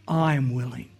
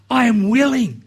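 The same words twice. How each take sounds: First: Low, gentle, much softer "I am willing"; hushed, tender "I am willing"; softly. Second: Said in the usual way. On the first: Retold or imitated. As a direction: say "I am willing" quietly and tenderly, as Jesus to the leper. Jesus answering the leper.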